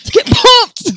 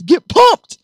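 First: Even higher hyped shout; energy drink ad. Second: Hyped high shout; energy drink ad. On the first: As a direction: scream it like a hype ad. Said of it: "Well, [name]'s pumped". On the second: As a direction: pump yourself up. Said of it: "I gotta move my body sometimes". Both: Real, not acted.

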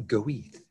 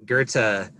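First: Goethe said as "Go-eeth", anglicized and jokey; joke pronunciation. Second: Goethe said as "GER-tuh", German style; German pronunciation. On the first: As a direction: pronounce Goethe like "GO-eeth" with a th ending. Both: Shown as a demonstration. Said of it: "sometimes pronounced".

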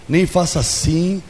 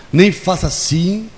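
Both takes have the same delivery.

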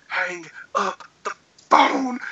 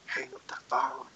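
First: "Hang up the phone" slow, word by word; emphatic repeated order. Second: Low, very soft retold command; hushed order. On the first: Retold or imitated. Friend insisting he end the call, slow emphatic "Hang up the phone". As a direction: space out "Hang up the phone", leaning on "phone". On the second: Friend ordering him off the call, hushed. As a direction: say it under your breath, low.

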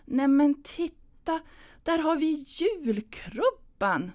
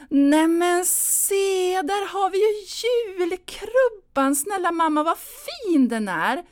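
First: Slow, higher, easy cheer; glad and simple. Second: Much higher, louder and slow, overplayed delight; forced excited call. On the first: Pretend. Anna rehearsing a cheerful line: slow, higher, gentle cheer. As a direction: point it out brightly, nice and easy. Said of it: "säga det glatt och enkelt". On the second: Anna distracting her mother with the crib: slow, high, loud cheer. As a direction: cry out in desperate cheer.

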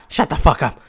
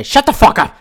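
First: Said in the usual way. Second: Higher, louder mock shout; a loud, mocking shut up. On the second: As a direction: bark it at the employees. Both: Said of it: "they say".

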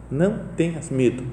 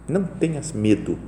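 The two takes are said the same way.

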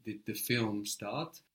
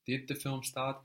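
First: Film stressed, said slowly with a rise. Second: Said in the usual way. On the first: Shown as a demonstration. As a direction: lean on the word film. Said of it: "But you might be asking". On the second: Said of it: "which part of the sentence are you questioning".

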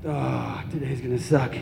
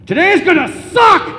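First: Low, soft, dejected sigh; weary groan. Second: Loud, high-pitched blurt; sudden shout. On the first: Acted. Waking up on Sunday morning, weary groan. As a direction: groan it softly, dreading the day. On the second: Retold or imitated. Dad to his child at parting, sudden shout. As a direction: yell it out like a blunt announcement. Dad's punchline after tender goodbye.

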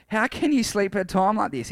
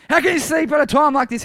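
First: Said in the usual way. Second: High, loud indignant shout; raised voice, full-on shout. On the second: Acted. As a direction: shout it at a sleeper in disbelief. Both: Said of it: "he shouted".

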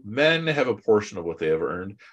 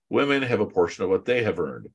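First: Men hit with a rising lift; men marked with a rise as the first half of a contrast; stress on men. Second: Women hit with a falling close; Women stressed and falling as the second half of the contrast. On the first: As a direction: lean on men, rising, to set it against women. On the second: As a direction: lean on Women, falling, to answer men. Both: Shown as a demonstration.

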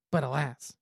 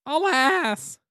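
First: Dramatic alas. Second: High, theatrical cry of alas; dramatic alas. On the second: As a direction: wail it like a tragic narrator. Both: Acted. Dramatic story ending exclamation.

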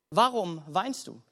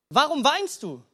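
First: Slow and lower, weighing each word; slow, pondering question. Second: Quicker, lifted repeat of the question; livelier repeat of question. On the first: Preacher puts the question to every listener, slow and pondering. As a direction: let the question sink in slowly. Question put to congregation slowly. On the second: Preacher presses the question on the congregation, livelier and lifted. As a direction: ask it afresh, with more lift. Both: Shown as a demonstration.

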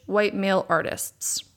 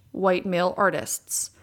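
No difference in how they are said.

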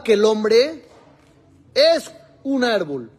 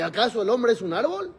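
First: Said in the usual way. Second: Rising question tune ending on árbol; árbol lifted as a question; read as a question. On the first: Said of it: "sin los signos de interrogación". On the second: Shown as a demonstration. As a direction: ask ¿acaso el hombre es un árbol? with a rise. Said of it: "como expliqué".

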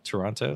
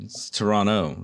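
First: Toronto with the T, tor-on-toe; Toronto, full tor-on-toe. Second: Toronto said tor-ah-no; Toronto, dropped T, tor-ah-no; no second T. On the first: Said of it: "Yeah, it's just Toronto". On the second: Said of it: "You don't pronounce the T". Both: Shown as a demonstration.

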